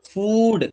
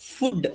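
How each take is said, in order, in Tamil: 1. உயிர் ஒலி நீளமானது. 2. உயிர் ஒலி குறுகியது. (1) "இத ஃபூடுன்னு சொல்லணும்" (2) "ஃபுட் அப்படின்னு சொல்லுவோம் ஆக்சுவலி இது தப்பு"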